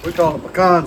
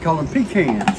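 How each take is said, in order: First: Pecan is said in the Louisiana pronunciation. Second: Pecan is said in the other regions' pronunciation. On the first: The speaker calls it right. "We call them pecans in Louisiana" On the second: The speaker calls it wrong. "A lot of places call them pecans"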